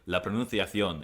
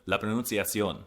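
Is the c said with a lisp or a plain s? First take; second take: lisp; plain s. First: The c is said with a lisped th sound. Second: The c is said with a plain s sound. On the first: "has a lisp, so I say la pronunciación" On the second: "instead of"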